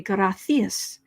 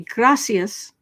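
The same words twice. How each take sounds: First: The middle consonant is a lisped th sound. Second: The middle consonant is a plain s sound. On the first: This is how it is said in Spain. "in Spain they say gracias" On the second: This is how it is said in Mexico. "how they say gracias in Mexico"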